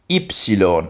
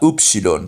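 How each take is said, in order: First: It is said the modern Greek way. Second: It is said the older English way. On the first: The speaker calls it right. "you would actually say ypsilon" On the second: The speaker calls it wrong. "and not upsilon"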